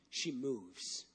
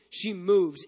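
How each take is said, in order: First: Much softer, low hushed line. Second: Said in the usual way. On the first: Shown as a demonstration. Preacher to congregation, soft and low. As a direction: drop to a near whisper.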